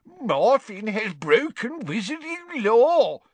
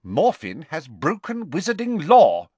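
First: High, slow, mocking sing-song; pompous sing-song mimicry. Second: Measured, stern pronouncement, pitched up. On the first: Father imitating the official's words, pompous and sing-song. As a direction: parrot it pompously, stretching every word. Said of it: "making it pompous and sing-song". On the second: Acted. Official accusing the son before his father, stern. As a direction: state the offence with stern authority. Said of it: "said Ogden sternly".

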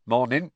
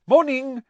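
First: Lightly voiced campsite owner, plain and unexcited; a hint of a gruff Muggle. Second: High, cheery, eager hello; bright greeting. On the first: Mr Roberts flatly returning the greeting, lightly voiced. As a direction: answer without enthusiasm. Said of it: "said the Muggle". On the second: Acted. Mr Weasley cheerily greeting the Muggle campsite owner. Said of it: "said Mister Weasley brightly".

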